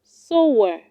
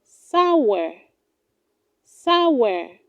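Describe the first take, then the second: First: Sour said as "so-wer"; wrong pronunciation. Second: Sour said as "SOW-er", ow as in cow; correct pronunciation. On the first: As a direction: give sour the vowel of so. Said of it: "Do not say sour". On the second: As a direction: open the vowel of sour to "ow". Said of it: "It is pronounced". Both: Shown as a demonstration.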